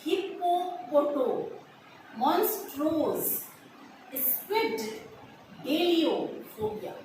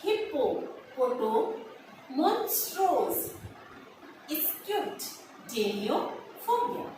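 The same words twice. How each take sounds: First: Teacher modelling हिप्पोपोटो मॉन्स्ट्रोस स्क्विड डेलियोफोबिया slowly for students; slow syllable-by-syllable pronunciation. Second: Second slow take of हिप्पोपोटो, मॉन्स्ट्रोस, स्क्विड, डेलियोफोबिया with pauses between parts; teacher repeating the long word slowly, chunk by chunk; slow repeated pronunciation. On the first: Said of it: "हम इसे pronounce करेंगे". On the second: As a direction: repeat each chunk slowly and clearly for students. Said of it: "second time फिर से बोलती हूँ मैं". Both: Shown as a demonstration.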